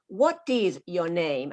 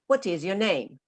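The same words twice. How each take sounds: First: Every word gets about the same stress. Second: The stress falls on 'what' and 'name'. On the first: The speaker calls it wrong. "repeat like a parrot like this" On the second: The speaker calls it right. "listen to me... what and name are important"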